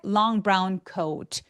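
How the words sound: The pitch steps down word by word. The sentence sounds finished. The speaker calls it right. "계단식으로 쫙 떨어지게"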